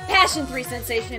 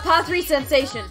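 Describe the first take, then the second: First: The first part is said as 'passion'. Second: The first part is said as 'pa three'.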